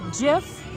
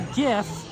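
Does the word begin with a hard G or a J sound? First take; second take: J sound; hard G. First: The word begins with a soft J sound. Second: The word begins with a hard G sound. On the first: "Jif like the peanut butter" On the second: "GIF like gift without the T"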